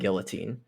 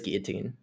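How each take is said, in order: First: The L sounds in the word are pronounced. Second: The L sounds in the word are silent. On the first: "But I like saying guillotine" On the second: "It is guillotine"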